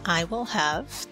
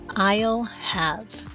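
First: Each word is said fully and separately. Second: The first two words merge into one syllable.

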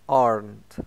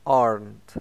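First: The word is said in an American accent. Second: The word is said in an American accent.

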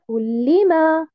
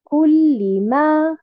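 First: The syllable 'li' is stressed. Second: The syllable 'li' is not stressed. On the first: It sounds like a verb. The speaker calls it wrong. "sinon ça va se transformer en un verbe" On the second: It is the word kulli followed by ma, not a verb. The speaker calls it right. "Je ne mets pas un nabr sur harakat al-lam"

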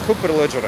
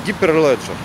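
First: The first part is pronounced 'khooper'. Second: The first part is pronounced 'giper'. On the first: The speaker calls it wrong. "надо правильно говорить не хупер-леджер" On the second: The speaker calls it right. "а гипер-леджер"

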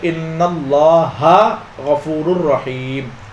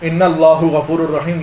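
First: Allah ends with an 'a' vowel. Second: Allah ends with a 'u' vowel. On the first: The noun is in the accusative case after inna. The speaker calls it right. "बल्कि आप पढ़ोगे" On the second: The noun is treated as in the nominative case. The speaker calls it wrong. "ये नहीं पढ़ोगे"

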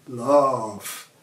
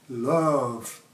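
Both takes have the same delivery.

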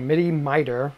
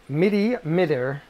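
First: The vowel in Mittr sounds like in miter. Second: The vowel in Mittr does not sound like miter.

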